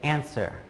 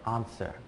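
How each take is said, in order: First: It is said in an American accent. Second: It is said in a British accent. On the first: "I would say answer" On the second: "a British person would say answer"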